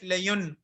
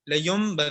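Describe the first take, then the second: First: The word ends with an n sound. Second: The word ends with an m sound. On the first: This is the word as it is written. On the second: This is how it is recited before ba.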